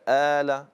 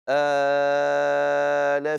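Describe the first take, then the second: First: The long vowel is held for two counts. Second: The long vowel is held for six counts. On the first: "القصر ... حركتين" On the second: "والطول ... ست حركات"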